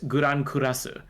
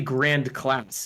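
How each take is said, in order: First: It is said with a Japanese pronunciation. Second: It is said with an English pronunciation. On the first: "but it's Guran Kurasu" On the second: "it should be Grand Class if it's English"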